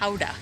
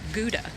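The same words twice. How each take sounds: First: The word begins with a breathy H-like sound. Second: The word begins with a hard G sound. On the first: This is how the town's name is really said. The speaker calls it right. "the G is kind of like an H sound" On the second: This is how people say it at home. The speaker calls it wrong. "at home, we always pronounce it Gouda"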